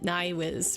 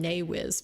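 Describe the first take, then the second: First: The first vowel sounds like 'eye', as in nine. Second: The first vowel sounds like 'ay', as in nay. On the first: The speaker calls it right. "I connected it to nine, like like like German no, nine Nywiz" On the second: The speaker calls it wrong. "I called him Naywiz yesterday, and he said it's Nywiz"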